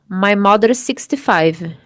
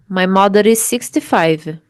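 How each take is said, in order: First: The two S sounds merge into one. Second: The same.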